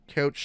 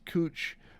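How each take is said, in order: First: The vowel is an ow sound, like pouch. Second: The vowel is an oo sound, like smooch. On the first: The speaker calls it wrong. "I'll go out of my way to mispronounce them" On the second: The speaker calls it right. "it's probably pronounced cooch"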